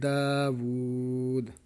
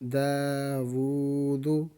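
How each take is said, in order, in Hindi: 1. शब्द का अंत एक सादे 'd' ध्वनि पर होता है। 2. शब्द का अंत एक छोटे 'u' स्वर से होता है।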